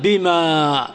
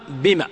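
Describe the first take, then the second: First: "بما" with the final aa drawn out; long final alif. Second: "بما" cut to a short final a; alif dropped. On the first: Teacher showing the wrong spelling, long aa. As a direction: stretch the end of "بما" long. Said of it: "ما تكتب". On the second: Teacher showing the alif deleted, short a. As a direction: end "بما" short, no long vowel. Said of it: "تحذف الألف". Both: Shown as a demonstration.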